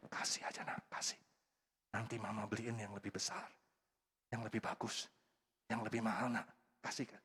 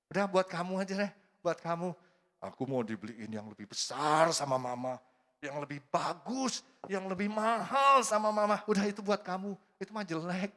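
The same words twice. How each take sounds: First: Put-on whispered, coaxing the child to give it up; soft coaxing mother. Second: Put-on smug child. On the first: Mother whispering to her own child to let the toy go. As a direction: hush the child gently into sharing. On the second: Child telling the neighbour's kid to keep the toy, smug and boasting. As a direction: brag like a spoiled little kid.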